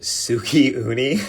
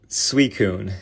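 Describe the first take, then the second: First: The name is said as 'suki uni'. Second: The name is said as 'suicune'. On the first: The speaker calls it wrong. "I like to irritate them by saying the names wrong" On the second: The speaker calls it right. "I think that's how I say it"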